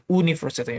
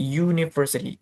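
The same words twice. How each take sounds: First: "university" starting with a bare "oo" vowel; wrong pronunciation. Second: "University" starting with a Y sound, "yu-ni"; correct pronunciation. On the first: Teacher warning students off a mistake, "university" misread with initial "oo". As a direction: mispronounce "university" as "oo-ni", no Y sound. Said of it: "Bukan university, oke?". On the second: Teacher modelling the word for students, "University" opened with "yu". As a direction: say "University" with a "you" glide at the start. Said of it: "Bukan university". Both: Shown as a demonstration.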